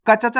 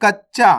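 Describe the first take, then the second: First: कच्चा run as "ka-cha-chaa"; wrong full-letter reading. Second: कच्चा as "kach-chaa"; correct doubled consonant. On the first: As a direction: give each ch its own vowel in कच्चा. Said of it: "नहीं पढ़ना". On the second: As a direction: hold the ch in कच्चा, then release. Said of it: "कच्चा नहीं पढ़ना". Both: Shown as a demonstration.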